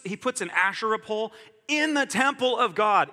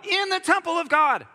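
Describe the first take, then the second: First: Said in the usual way. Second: Much higher and louder, incredulous; outraged disbelief, almost shouted; outraged exclamation. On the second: Real, not acted.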